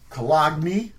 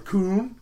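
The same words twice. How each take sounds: First: It is said with the usual English pronunciation. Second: It is said with the local city pronunciation.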